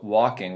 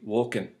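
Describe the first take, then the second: First: The word ends in an -ing sound. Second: The word ends in an -in sound.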